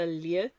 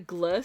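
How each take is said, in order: First: It is said as an l-like sound, no g. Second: It is said with a hard g before l. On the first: The speaker calls it right. "It's a l sound" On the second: The speaker calls it wrong. "is not a gl sound like it is in English"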